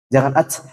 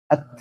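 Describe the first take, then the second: First: The t ends with a heavy, exaggerated breath. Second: The t ends with a light puff of breath. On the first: The speaker calls it wrong. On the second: The speaker calls it right.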